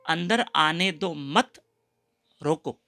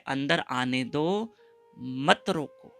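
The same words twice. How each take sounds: First: The pause comes after the word मत. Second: The pause comes before the word मत.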